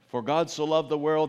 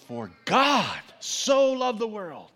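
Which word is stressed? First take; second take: none; God. First: It is said flatly with no word stressed. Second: The word God carries the stress. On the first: It doesn't mean a whole lot. "when I just do it very monotonely" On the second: The focus is on who loved the world. "we think about this God who so loved the world"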